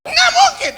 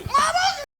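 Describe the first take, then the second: First: Very high, loud, laughing mock shriek; furious denial. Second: Very high shrill denial, less loud; furious denial. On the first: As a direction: shriek it in disbelief. Istri menyangkal dengan marah. (istri menjerit tidak percaya) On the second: Retold or imitated. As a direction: screech the denial again. Istri menyangkal lagi. (istri menjerit menyangkal)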